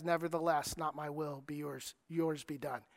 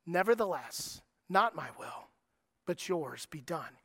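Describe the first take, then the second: First: Much softer, hushed and yielding; trusting surrender. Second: Soft, low, yielding words; quiet surrender. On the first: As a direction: give it up softly in full trust. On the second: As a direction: let go gently, trusting. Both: Retold or imitated. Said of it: "the tone in which Jesus says".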